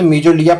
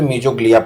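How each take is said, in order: First: The word is said without any g sound. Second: The word is said with a clear g sound. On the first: This is the English way of reading it. "English के उच्चारण के हिसाब से मीजोलिया पढ़ा जाता है, जी को silent कर देते हैं" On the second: This is the Hindi way of reading it. "Hindi के उच्चारण के हिसाब से मीजोग्लिया पढ़ते हैं"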